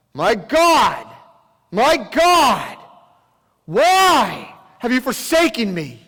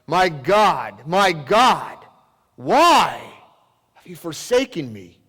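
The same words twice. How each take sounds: First: Much higher, louder, slow wrenching outcry; anguished cry. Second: Loud, anguished outcry to God; anguished cry. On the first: Jesus crying out from the cross in darkness, wrenching anguish. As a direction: wail it out, voice breaking with anguish. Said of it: "we hear him cry out off the cross". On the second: Jesus crying out to God from the cross, anguished. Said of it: "we hear the sound of anguish in Jesus' voice when he cries out". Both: Acted.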